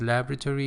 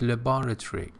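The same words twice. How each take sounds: First: It is said with an American pronunciation. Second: It is said with a British pronunciation. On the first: "In American pronunciation it is" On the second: "in British pronunciation it, it is"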